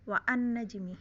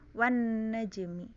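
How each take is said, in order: First: The hamzah vowel is pronounced separately. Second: The hamzah vowel is dropped and linked. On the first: The speaker calls it wrong. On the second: The speaker calls it right.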